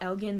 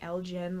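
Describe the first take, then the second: First: The g is a hard sound, as in 'go'. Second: The g is a soft sound, as in 'generation'. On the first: "I used to call it Elgin" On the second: "like generation"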